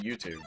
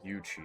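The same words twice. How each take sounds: First: It is said with an American accent. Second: It is said with a British accent. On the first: The speaker calls it wrong. "I called it YouTube" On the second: The speaker calls it right. "It would be YouTube, but I say it wrong"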